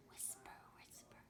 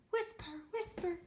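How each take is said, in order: First: Very soft, low unvoiced whisper. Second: High whisper. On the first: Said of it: "whisper really low". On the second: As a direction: lift it high and keep it light. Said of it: "And really high?". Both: Shown as a demonstration.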